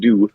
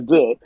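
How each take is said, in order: First: The word sounds like the English word 'do'. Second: The word is said with a French vowel. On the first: The speaker calls it wrong. "is two, not not do" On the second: The speaker calls it right. "Yeah, deux"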